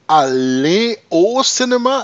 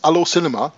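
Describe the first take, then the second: First: It is said carefully, each word clearly separate. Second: It is said fast, words run together. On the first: "so it is aller au cinéma" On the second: "they speak that sometimes so fast it's allo cinema, like hello cinema"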